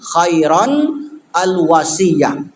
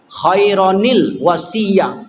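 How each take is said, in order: First: The words are separated by a stop between them. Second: The words are joined with an added linking sound.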